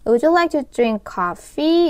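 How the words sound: The voice rises strongly at the end. The speaker calls it right. "이렇게 끝을 쭉 올려주시면 그게 맞는 인토네이션입니다"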